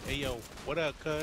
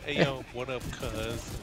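First: The final z sound of cuz is dropped. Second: The final z sound of cuz is pronounced. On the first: The speaker calls it right. "we don't say the Z. ... We say ... Like that" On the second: The speaker calls it wrong. "We don't say that"

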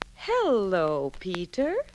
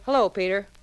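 First: It is said slowly, loudly and distinctly. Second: It is said quickly and abruptly. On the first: The speaker calls it right. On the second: The speaker calls it wrong. "Don't say"

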